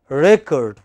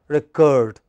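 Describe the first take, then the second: First: The stress is on the first syllable. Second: The stress is on the second syllable. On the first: It is used as a noun. "when it is a noun, it is the first syllable which is stressed. As noun" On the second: It is used as a verb. "When it is verb, it is the second syllable which is stressed"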